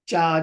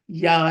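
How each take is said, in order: First: The syllable starts with a J sound. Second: The syllable starts with a Y sound. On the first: "The J" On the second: "Some people pronounce it like the Y"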